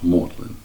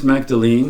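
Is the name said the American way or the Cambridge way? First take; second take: Cambridge; American. First: The name is said with the local Cambridge pronunciation. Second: The name is said with an American pronunciation. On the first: The speaker calls it right. "really should be pronounced as Magdalene" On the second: The speaker calls it wrong. "I said in my best American English"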